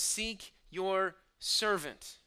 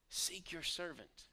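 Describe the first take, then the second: First: Loud, slow cry of "Seek your servant", each word drawn out; passionate cry. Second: Said in the usual way. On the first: Shown as a demonstration. Preacher crying out the psalmist's plea, slow and loud. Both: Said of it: "the passionate cry when he says".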